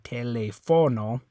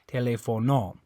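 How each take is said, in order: First: The stress is on the third syllable. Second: The stress is on the last syllable. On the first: "If you're stressing that O" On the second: "And if you're stressing this O"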